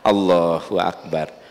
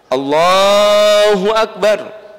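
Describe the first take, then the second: First: It is said softly. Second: It is said loudly.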